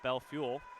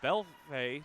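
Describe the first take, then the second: First: The name ends with a 'fuel' sound. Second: The name ends with a 'fay' sound. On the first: The speaker calls it wrong. "not Bell Fuel" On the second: The speaker calls it right. "As Bell Fay"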